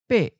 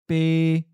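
First: The syllable is high and cut off abruptly. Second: The syllable is mid-pitched, level and not cut off. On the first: "high stop"

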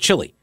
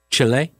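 First: The name is said the older familiar way. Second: The name is said the newer preferred way. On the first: This is how it was said in the past. The speaker calls it wrong. "we used to just call it Chile when we were growing up" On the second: This is how people now want it said. The speaker calls it right. "I try to pronounce the words the way people want them pronounced"

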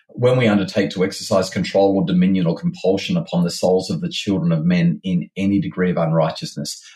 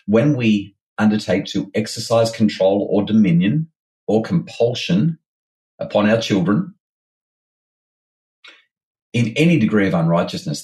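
First: It is said at a normal pace. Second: It is said slowly and deliberately.

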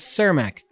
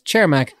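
First: The name is said with an American pronunciation. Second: The name is said with a Czech pronunciation. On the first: "the Chicago American community says Cermak" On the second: "The Czech community here says Cermak"

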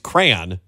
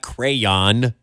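First: The word is said as one syllable. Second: The word is said as two syllables. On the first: The speaker calls it right. "It's crayon" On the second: The speaker calls it wrong. "not crayon"

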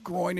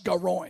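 First: It is said in a plain accent. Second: It is said in a Texas accent.

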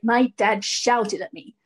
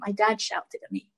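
First: It is said with anger in the voice. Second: It is said calmly, without emotion.

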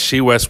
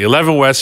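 First: The first word is said as 'she'. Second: The first word is said as 'eleven'. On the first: XI is read as a Chinese word. "We're spelling it as XI. However you want to pronounce it, it doesn't matter" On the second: XI is read as a Roman numeral. "We're spelling it as XI. However you want to pronounce it, it doesn't matter"

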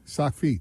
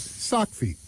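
First: The word feet is stressed. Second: The word sock is stressed. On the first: The speaker calls it right. "It's slightly on the feet part of the two-word phrase" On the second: The speaker calls it wrong. "You put the emphasis on the sock"

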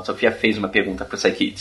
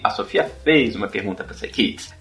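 First: It is said as a statement. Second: It is said as a question.

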